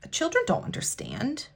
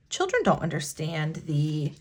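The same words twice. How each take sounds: First: Unvoiced whisper, emotional; hushed, near tears. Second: Said in the usual way. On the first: Real, not acted. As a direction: breathe it out as a whisper. Emotional point about child clients.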